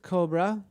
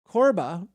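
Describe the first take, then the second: First: The B sound comes before the R sound. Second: The R sound comes before the B sound. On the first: The speaker calls it wrong. "not Cobra" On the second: The speaker calls it right. "Corba, thank you"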